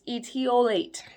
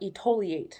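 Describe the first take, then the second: First: The 't' is followed by an 'ee' sound. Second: The 't' is followed by an 'oh' sound. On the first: The speaker calls it right. "number seven is etiolate" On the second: The speaker calls it wrong. "They always call it etoliate"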